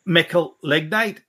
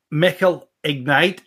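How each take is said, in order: First: "Mickle Lignite" slowly, with the L of "Lignite" carried over and stressed; "Lignite" drawn out with a questioning rise; pun on Lignite. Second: Said in the usual way. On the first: Shown as a demonstration. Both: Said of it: "it'll read".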